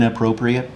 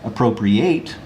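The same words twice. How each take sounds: First: It is pronounced the way the adjective is. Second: It is pronounced the way the verb is. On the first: It means suitable or fitting. "As an adjective" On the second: It means to take possession of something. "slightly different pronunciation as a verb"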